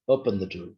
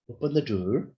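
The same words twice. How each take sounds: First: The voice falls at the end. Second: The voice rises at the end. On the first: It is an order. "in pulling intonation is an order" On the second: It is a request. "in rising intonation is a request"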